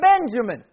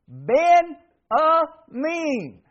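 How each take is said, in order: First: The name has the familiar English pronunciation. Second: The name has a Hebrew-like pronunciation, ending 'meen'.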